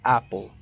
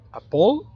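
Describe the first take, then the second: First: "apple" stressed on the first syllable, AP-pol, falling. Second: "apple" stressed on the second syllable, a-POL, rising high and loud; mispronounced "apple" with a raised, louder last syllable; wrong stress. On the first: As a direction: hit AP in "apple", drop the end. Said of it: "sino como". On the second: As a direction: punch the end of "apple" as a-POL. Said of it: "no se pronuncia como". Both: Shown as a demonstration.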